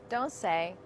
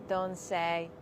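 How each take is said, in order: Both takes have the same delivery.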